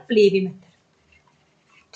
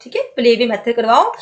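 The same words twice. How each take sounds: First: Slow whisper, drawn out; whispered answer. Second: Said in the usual way. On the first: Shown as a demonstration. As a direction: let the answer slip out as a slow whisper, play way method breathed, not voiced. Teacher reveals answer softly. (धीमी फुसफुसाहट में उत्तर)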